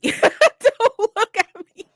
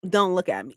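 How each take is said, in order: First: High, slow, laughing mock plea. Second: Said in the usual way. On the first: Avoiding locals at the cemetery, pleading through laughter. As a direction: stretch it out, laughing. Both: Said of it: "I was like".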